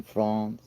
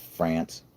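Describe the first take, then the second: First: France said the French way, a nasal "Frahnce" as Greer says it; mock-fancy French "France"; Frenchified France. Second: "France" said the flat American way, as in "ant"; plain Yank "France"; "France" with a flat short "a". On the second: Retold or imitated. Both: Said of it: "instead of France?".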